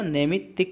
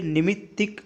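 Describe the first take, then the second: First: नैमित्तिक opening on nai; correct pronunciation. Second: निमित्तिक opening on a short ni; wrong pronunciation. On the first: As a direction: stretch नैमित्तिक into a ne sound. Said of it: "नैमित्तिक होता है". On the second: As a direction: say निमित्तिक with a plain i. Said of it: "निमित्तिक नहीं होता". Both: Shown as a demonstration.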